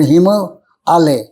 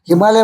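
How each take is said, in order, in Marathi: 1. तो दोन वेगळ्या भागांत म्हटला जातो. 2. तो एकच जोडलेला शब्द म्हणून म्हटला जातो. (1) "पण हिम आलय" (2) "हिमालय म्हणतात"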